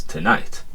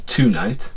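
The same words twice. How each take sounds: First: "tonight" with the weight on the second syllable, to-NIGHT, softly; correct stress on night. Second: "tonight" stressed on the first syllable, TO-night, slow; wrong stress on to. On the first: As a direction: put the stress back on "night". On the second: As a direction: misplace the stress onto "to". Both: Shown as a demonstration. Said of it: "It's not tonight, it's tonight".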